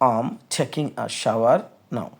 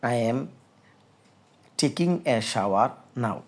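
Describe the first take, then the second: First: It starts with a contracted, linked 'I'm'. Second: It starts with a full, separate 'I am'. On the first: "এই বাক্যটাকে বিদেশিরা কীভাবে উচ্চারণ করবে? এখন শুনুন।" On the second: "এটার ইংলিশটা হলো"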